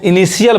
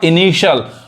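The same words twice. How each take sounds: First: The middle consonant is a hard t sound. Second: The middle consonant is an sh sound. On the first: The speaker calls it wrong. "बहुत लोग इसको इनिशियल बोलते हैं जो कि क्या है, गलत उच्चारण है" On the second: The speaker calls it right. "सही उच्चारण क्या होगा"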